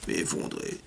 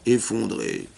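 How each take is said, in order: First: "effondré" breathed out as a whisper; whispered repeat. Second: Said in the usual way. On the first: Retold or imitated. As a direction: drop the echo of "effondré" to a whisper. (« effondré » répété dans un souffle) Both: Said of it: "Il était en pleurs".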